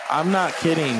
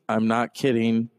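First: "not" pushed up and hit hard; "I'm not kidding" with a punched "not"; stress on not. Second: Said in the usual way. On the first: Shown as a demonstration. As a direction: lean on "not".

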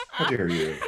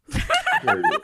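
First: Lower, half-hearted repeat of the scold; low mock scolding. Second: Much higher, hammed-up outraged scold; mock stern scolding. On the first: Man repeating the mock scold to his partner, lower and half-hearted. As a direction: drop it down, mock stern. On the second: Man doing a mock light punishment during sex, hammed-up high scold. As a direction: play a scandalized aristocrat, overdone. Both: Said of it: "a light punishment".

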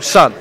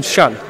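First: Said in the usual way. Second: "Shun", sun said with a sh sound; "Shun" with the s softened to sh. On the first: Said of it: "Like, with an S". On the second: Shown as a demonstration. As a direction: say "Shun" as slangy sun, opening on sh. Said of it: "with an H".

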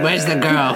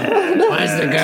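First: Said in the usual way. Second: Put-on Where's the girl rising high and slow; high sing-song menace. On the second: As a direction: call "Where's the girl?" high and drawn out like a creepy hunter.

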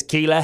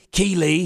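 First: "Keele" clipped to one syllable, keel; Jamie's Keele. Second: "Keely" with a full two-syllable ending ee-lee; wrong way, Keely. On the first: Imitating how Jamie clips Keele to one syllable. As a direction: say "Keele" dropping the final ee sound. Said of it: "he doesn't say Keely". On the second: Contrasting how people usually say Keely with two syllables. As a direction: say "Keely" the standard way with a clear second syllable. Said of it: "he says Keele". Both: Shown as a demonstration.

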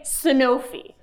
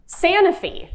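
First: "Sanofi" as suh-NO-fee; second-syllable stress. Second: "Sanofi" as SAN-uh-fee; first-syllable stress. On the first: Host offers the rival option, "Sanofi" as suh-NO-fee. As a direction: put the weight on NO in "Sanofi". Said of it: "clap if you say Sanofi". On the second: Host polls audience, "Sanofi" stressed SAN-uh-fee. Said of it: "please clap if you say". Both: Shown as a demonstration.

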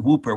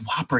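First: WHOOPER with a long "oo"; "WHOO-per", the botched way; mispronunciation. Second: WHOPPER with a short open "o"; "WHOP-per", the standard way; correct pronunciation. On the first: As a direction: say Whooper to rhyme with trooper. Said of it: "it's not Whooper". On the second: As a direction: say Whopper to rhyme with chopper. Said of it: "it's pronounced Whopper". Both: Shown as a demonstration.

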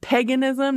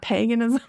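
First: Paganism with a flat Midwest short a, PAG-uh-nism; Midwest pronunciation. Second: Paganism with a long a, PAY-guh-nism; standard pronunciation. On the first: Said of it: "I'm gonna say that weird because I have, like, a Midwest accent". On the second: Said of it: "Sounds really weird to say it that way". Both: Shown as a demonstration.

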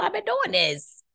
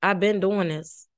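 First: High, slow sing-song. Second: Said in the usual way. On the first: Shown as a demonstration.

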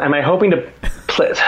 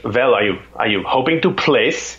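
First: Mock-incredulous echo in own accent. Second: Put-on German accent. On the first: Amateur answering the German pro, incredulous echo. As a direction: throw the question back in disbelief. Echoes the German's question back, disbelieving. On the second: German pro sizing up a rival at the race, German accent. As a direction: imitate a German's careful question. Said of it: "it's this German accent".

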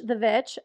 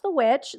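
First: "Vitch" with a V in place of the W; joke pronunciation. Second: Said in the usual way. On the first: Shown as a demonstration. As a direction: say "Vitch", swapping W for a V sound.

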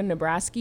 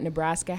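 First: Nebraska ending in "-skee"; slip on Nebraska. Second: Said in the usual way. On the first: Real, not acted. Host asking the panel about recruits, Nebraska slipped into "Nebrasky". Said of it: "Did you just go Nebraska?". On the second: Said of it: "it sounded like you said Nebraska".

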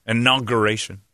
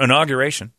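First: Inauguration said in-aug-ur-ation with no y; corrected pronunciation. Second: Inauguration said with a gyu sound, in-aug-yur-ation; mispronounced inauguration. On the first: Shown as a demonstration. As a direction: Inauguration cleanly, gur not gyur. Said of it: "Not inauguration". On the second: Real, not acted. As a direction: Inauguration with an extra y before the u. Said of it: "I keep saying that".

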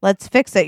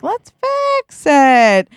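First: Said in the usual way. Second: High, drawn-out eager urging; insistent repeat. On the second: Acted. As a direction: stretch every word in a sing-song push.

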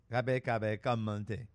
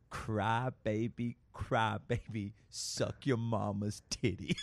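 First: Garbled, low-key Southern drawl imitation. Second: Very slow, hushed Southern drawl imitation; really slow. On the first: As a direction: mimic a little girl's unintelligible Southern drawl. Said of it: "she had a very southern drawl accent". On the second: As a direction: draw each word out so it can be understood. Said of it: "Please say it really slow".

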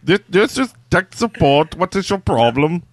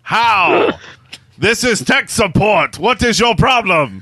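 First: Lightly put-on Indian tech-support accent. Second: Mock Indian tech-support accent, a notch higher. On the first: Second try at the sponsor's line, mock Indian accent. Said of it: "I don't know what accent that was, but it was Indian". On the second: Sponsor asks [name] for an Indian accent, hammed-up Indian accent. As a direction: ham up an Indian call-centre voice. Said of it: "say the following message in an Indian accent".

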